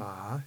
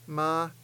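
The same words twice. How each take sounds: First: The pitch rises from low to high. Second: The pitch stays high. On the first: "ma is the rising tone" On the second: "ma is the high tone"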